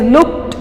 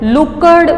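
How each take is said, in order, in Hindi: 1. अंत t की ध्वनि से बोला जाता है। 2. अंत d की ध्वनि से बोला जाता है। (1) "ઇટ ઇઝ લુક્ડ" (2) "લુકડ બોલાતું નથી"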